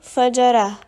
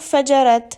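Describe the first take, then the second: First: The word ends with a soft h sound. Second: The word ends with a clear t sound. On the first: The speaker calls it right. "Il faut donc lire fajara" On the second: The speaker calls it wrong. "Attention à ne pas lire fajarat"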